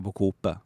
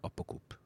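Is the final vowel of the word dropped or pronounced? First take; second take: pronounced; dropped. First: The word ends with a final vowel. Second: The final vowel is cut off. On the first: This is how the word is written. "du säger inte apokope så du skriver den" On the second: This is how the word is actually said. "men du säger apokop. Du kuttar vokalen på slutet"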